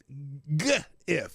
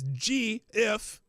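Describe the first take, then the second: First: It begins with a hard G sound, as in go. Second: It begins with a soft J-like G sound.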